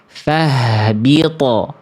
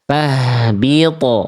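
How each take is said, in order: First: The final t bounces with a thick sound. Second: The final t bounces with a thick sound.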